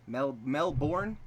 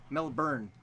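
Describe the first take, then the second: First: Melbourne with a full "born" ending; Melbourne, second syllable rhyming with "corn", questioning; trying a pronunciation. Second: Melbourne with a "burn" ending; Melbourne, second syllable rhyming with "turn", falling; trying a pronunciation. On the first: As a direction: slowly test out Melbourne as "Mel-BORN". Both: Shown as a demonstration. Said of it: "Sort of".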